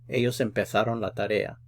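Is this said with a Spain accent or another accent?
Spain. It is said with the Spain pronunciation.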